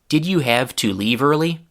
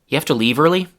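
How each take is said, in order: First: Every syllable is pronounced fully and clearly. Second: Sounds are reduced and syllables dropped, so it's shorter. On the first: "the full form of the target sentence" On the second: "one of the more chewing gum-like versions of it"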